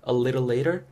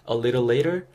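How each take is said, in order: Both takes have the same delivery.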